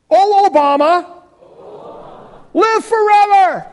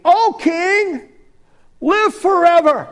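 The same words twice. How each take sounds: First: High, loud hammed-up proclamation; mock royal salute. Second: High, loud proclamation to the king; royal address. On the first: Shown as a demonstration. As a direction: hail him like an ancient king. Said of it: "Let's say this together". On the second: Acted. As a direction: hail the king grandly. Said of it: "Daniel said to the king".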